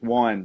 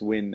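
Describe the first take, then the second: First: The vowel is long, rhyming with 'wine'. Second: The vowel is short, rhyming with 'win'. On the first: The speaker calls it wrong. "I thought it was wine" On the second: The speaker calls it right. "but it's win"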